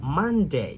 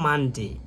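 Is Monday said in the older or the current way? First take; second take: current; older. First: The word is said with the current pronunciation. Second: The word is said with the older pronunciation. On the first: The speaker calls it right. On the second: The speaker calls it wrong.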